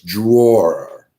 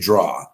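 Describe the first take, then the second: First: It is said with an ending, like drawer. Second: It is said as one syllable, like draw. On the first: It clearly names the furniture compartment. The speaker calls it right. "No, it's drawer" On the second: It sounds like the verb for making pictures. The speaker calls it wrong. "I used to say draw"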